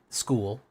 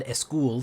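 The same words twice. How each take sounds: First: Said in the usual way. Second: "a school" as one word, eh-school; added sound before S. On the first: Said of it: "to make it school". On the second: Shown as a demonstration. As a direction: start "a school" with a short vowel before the S. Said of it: "you're gonna add a school".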